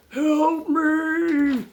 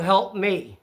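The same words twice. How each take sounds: First: High, drawn-out mock holler; imitated yell for help. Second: Said in the usual way. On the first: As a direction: imitate a man calling out from the woods. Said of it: "you can still hear him going". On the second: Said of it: "he must have yelled".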